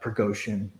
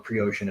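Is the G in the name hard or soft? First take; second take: hard; soft. First: The G is said as a hard sound. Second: The G is said as a soft sound.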